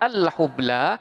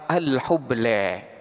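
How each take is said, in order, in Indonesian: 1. Vokal panjang di akhir adalah bunyi 'a' yang terbuka. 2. Vokal panjang di akhir condong ke bunyi 'e'.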